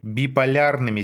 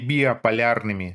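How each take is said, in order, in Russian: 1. Говорится 'bipolyarnymi' без лишней гласной. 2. Говорится 'biopolyarnymi' с лишним 'o'. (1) "Биполярными, Сева, а не биополярными" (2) "а не биополярными"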